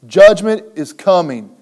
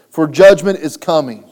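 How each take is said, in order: First: Judgment hammered loud, falling tune; repeated stress on judgment. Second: Judgment punched loud and falling; stress on judgment. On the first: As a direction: lean into Judgment once more. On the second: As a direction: hit the word judgment hard. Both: Shown as a demonstration.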